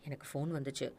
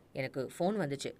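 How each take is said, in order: First: Much softer, subdued admission; low-voiced. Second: Said in the usual way. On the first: Captive finally confessing to his captor, softly. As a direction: say it barely above a murmur. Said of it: "மெதுவான குரலில் சொல்லத் தொடங்கினான்".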